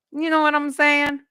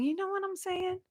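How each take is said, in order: First: Said in the usual way. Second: High, soft put-on voice; lightly voiced playful aside. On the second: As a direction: toss it off in a silly voice. Repeated with a put-on voice.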